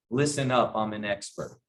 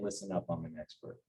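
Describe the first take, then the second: First: Said in the usual way. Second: Implied softly. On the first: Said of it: "how do you say". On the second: Shown as a demonstration. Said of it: "without saying".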